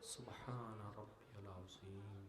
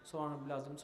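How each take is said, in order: First: It is said slowly. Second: It is said very fast.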